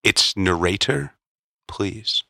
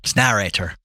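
First: "narrator" drawn out slowly, stress moved to second syllable, nuh-RAY-ter; mock-correct pronunciation. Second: "narrator" with stress on the first syllable; pronunciation comeback. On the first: Co-host correcting the reader, "narrator" slowly as nuh-RAY-ter. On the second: Reader answering the correction, "narrator" stressed on first syllable. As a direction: say "narrator" as NA-ray-ter. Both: Shown as a demonstration.

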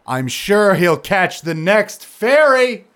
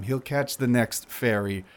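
First: High, loud, slow drawn-out ferry; exasperated. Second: Said in the usual way. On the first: Acted. Tavar dismissing Zandros, exasperated.

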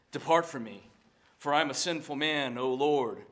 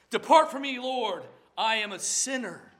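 First: Said in the usual way. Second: Louder, higher anguished plea; pleading cry. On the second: Acted. Peter begging the Lord to depart, a loud anguished plea. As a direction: cry out to be sent away.

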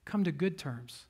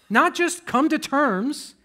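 First: Good leaned on, dropping soft after the build; stress on good. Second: Not just come to terms, drawn out high and loud; slow raised contrast. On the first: Preacher correcting the phrase, stress on good. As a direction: land on the word good. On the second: Preacher to congregation, slow rising emphasis. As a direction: set up the contrast slowly, climbing on terms. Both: Shown as a demonstration.

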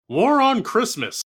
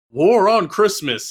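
First: Slow, higher, booming headline voice; dramatic TV announcer. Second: Slow, weighty announcer read; dramatic TV announcer. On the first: Dad turns on the TV, announcer booms. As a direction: intone it like breaking news. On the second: Mother turns on the TV, announcer intones. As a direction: boom it out like a news headline. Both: Retold or imitated.

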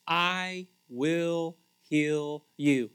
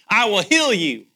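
First: "I will heal you" very slow and gentle; slow gentle promise. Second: "I will heal you" loud and higher, stress on heal; joyful proclamation. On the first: God promising Hezekiah healing, slow and gentle. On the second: Preacher repeating God's promise to the church, loud and joyful. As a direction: proclaim it loudly, leaning on heal. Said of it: "That is really good news". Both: Shown as a demonstration.

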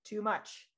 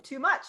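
First: Whispered, falling TOO MUCH; quiet, voiceless echo on "too much"; hushed repeat. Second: Said in the usual way. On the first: Shown as a demonstration.

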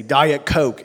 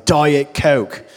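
First: Lightly voiced rock star demand, louder. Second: Loud imitated yell, voice changed. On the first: Comedian's bit about a star ordering drinks, lightly mocked demand. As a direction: call it out like a famous rock star. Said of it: "so famous that he can say". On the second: Family member quoting a star around the house, mock yell. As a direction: yell it like a demanding rock star. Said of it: "wander around the house yelling".

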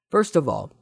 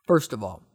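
First: Louder, higher first try; emphatic opener. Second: Said in the usual way. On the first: Acted. Host answering a listener question, emphatic. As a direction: launch the reply with a push.

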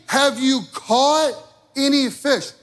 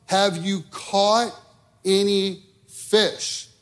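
First: Pastor acting Jesus calling to fishermen, higher and louder. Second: Jesus calling out. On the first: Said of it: "he's asking them a question". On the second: A narrator's reading. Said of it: "he called out".

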